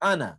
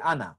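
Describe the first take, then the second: First: The final vowel is cut short. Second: The final vowel is cut short.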